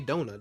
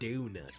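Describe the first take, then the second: First: Donut is said in a non-British accent. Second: Donut is said in a British accent. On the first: "British people don't say donut" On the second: "they say donut"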